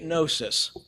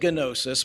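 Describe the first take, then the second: First: The initial G is silent, starting with N. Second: The initial G is pronounced before the N. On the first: "there's a silent G on the beginning of that word" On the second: "You look at it and it looks like gnosis"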